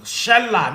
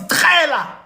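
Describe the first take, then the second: First: The word begins with a plain hissing consonant. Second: The word begins with a click consonant. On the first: The speaker calls it wrong. "people will be like, Shalla, no" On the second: The speaker calls it right. "it's qella. It's a click word"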